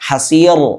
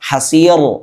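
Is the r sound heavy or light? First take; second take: heavy; heavy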